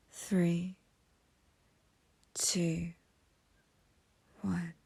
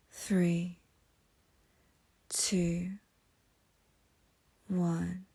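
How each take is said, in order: Both takes have the same delivery.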